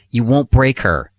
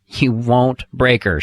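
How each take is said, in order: First: Slow, louder "won't" leaned on; emphatic reassurance. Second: Slow, "break" stressed and falling; emphatic repeat. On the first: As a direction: press on "won't", take your time. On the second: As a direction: land hard on "break", slowly. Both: Shown as a demonstration. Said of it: "guess what".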